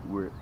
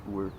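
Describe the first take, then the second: No difference in how they are said.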